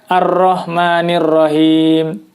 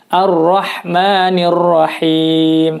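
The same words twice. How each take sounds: First: The h in Rahim has little audible air. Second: The h in Rahim has clearly audible breath. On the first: The speaker calls it wrong. "Tentu saja itu tidak tepat" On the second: The speaker calls it right. "keluar udara dari mulut kita"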